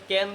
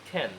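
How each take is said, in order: First: Said in the usual way. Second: খ্যান with a puff of air on the K; short, aspirated খ্যান; aspirated pronunciation. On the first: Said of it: "এতদিন ক্যান বলতাম". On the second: Shown as a demonstration. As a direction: breathe out on the first sound of খ্যান, "khen". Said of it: "এখন কী হবে".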